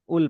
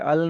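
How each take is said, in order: First: The particle is said with a 'u' vowel. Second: The particle is said with an 'a' vowel. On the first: The speaker calls it right. "उल प्रोनाउंस करोगे अगर बीच में आ रहा है तो" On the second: The speaker calls it wrong. "अल नहीं प्रोनाउंस करोगे"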